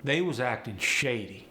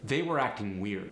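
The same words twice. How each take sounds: First: AAVE delivery, forward placement. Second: Said in the usual way. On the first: Shown as a demonstration. Teacher showing "was" for "were", AAVE. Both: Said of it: "How about this one".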